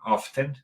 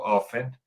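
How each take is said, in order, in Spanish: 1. El sonido de la T se pronuncia en la palabra. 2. El sonido de la T se omite en la palabra. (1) "cuando vivía en Estados Unidos sonaba often" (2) "Ahora que vivo aquí no suena, digo often"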